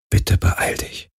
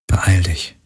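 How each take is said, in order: First: Leises, langsames Flehen flüstern; geflüstert. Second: Said in the usual way. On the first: Acted. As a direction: flehend hauchen wie ein Gebet. (geflüsterter, flehender Gedanke) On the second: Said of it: "dachte sie".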